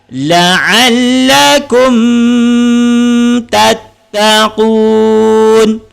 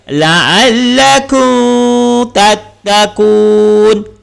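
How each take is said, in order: First: The m is held with a nasal hum. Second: The m is made without the lips closing. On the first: "Salah, kerana dekat situ ada dengung" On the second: "Salah, bibir tak rapat"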